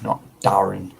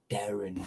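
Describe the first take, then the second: First: The first vowel sounds like 'a' in 'bad'. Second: The first vowel sounds like 'e' in 'bed'. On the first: The speaker calls it wrong. "not the A" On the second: The speaker calls it right. "Because it's an E"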